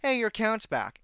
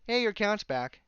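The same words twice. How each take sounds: First: High bright mock chirp; mock cheerful email. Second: High mock chirp, sarcastic; mock cheerful email. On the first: Imitating the cheery email that says his account is back, mock chirp. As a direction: sarcastically chirp the email's line. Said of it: "basically being told". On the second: Repeating the email's cheery line to mock it, high mock chirp. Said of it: "another email saying".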